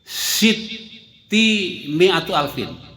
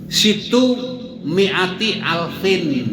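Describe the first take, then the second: First: The first word ends in i, the second in u. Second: The first word ends in u, the second in i. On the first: The speaker calls it wrong. "Bukan siti itu mestinya" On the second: The speaker calls it right. "yang betul begitu ya"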